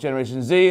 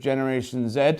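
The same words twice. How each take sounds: First: Z is said the American way, as zee. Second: Z is said the British way, as zed.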